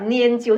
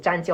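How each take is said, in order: First: The first syllable is pronounced nian. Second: The first syllable is pronounced zhan. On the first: The speaker calls it right. "还是要拈阄才打得出来" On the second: The speaker calls it wrong. "我以为是读沾阄，我一直读沾阄"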